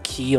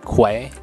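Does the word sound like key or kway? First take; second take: key; kway. First: It sounds like key, with no w sound. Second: It sounds like kway, with a w sound. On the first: The speaker calls it right. "Some people pronounce it key, like how I'm saying it" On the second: The speaker calls it wrong. "Some people pronounce it quay"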